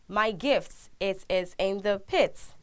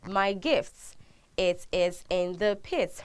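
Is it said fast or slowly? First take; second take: fast; slowly. First: It is said faster. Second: It is said slowly.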